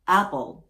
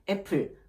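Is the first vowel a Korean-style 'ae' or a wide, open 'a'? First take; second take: wide open; Korean ae. First: The first vowel is wide with the jaw open. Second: The first vowel is a Korean-style 'ae'. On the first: The speaker calls it right. "Smile, draw the jaw" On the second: The speaker calls it wrong. "애플 하지 않으시길 바랍니다"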